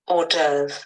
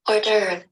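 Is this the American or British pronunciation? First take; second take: British; American. First: Said in a British way, French-like, no r before v. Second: Said in an American way, with r before v. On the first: "This is British" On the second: "In American, they put the R before the V"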